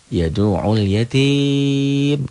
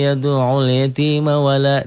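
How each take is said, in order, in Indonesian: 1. Berhenti di yatim, vokal terakhirnya dipanjangkan. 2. Bersambung terus ke yatima, tidak ada yang dipanjangkan. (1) "jika berhenti membacanya ... jadi mad adli sukun" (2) "disambung, nggak ada yang panjang di sini"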